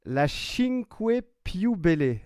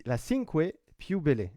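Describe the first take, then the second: First: Cinque Più Belle in a hammed-up Italian accent, higher and louder. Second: Put-on Italian accent. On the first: Joking back to a viewer about [name]'s Italian accent, in a hammed-up Italian accent. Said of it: "c'est en phonétique". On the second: Apologising for his Italian accent while naming the insert, in a light Italian accent. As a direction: say Cinque Più Belle with a gentle Italian accent, ending each word on an e. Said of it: "Vous m'excuserez d'avance de mon accent italien".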